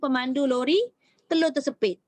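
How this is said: There is a pause after the word lori. The truck driver's egg got pinched. The speaker calls it wrong. "kalau ada yang baca pemandu lori, telur tersepit"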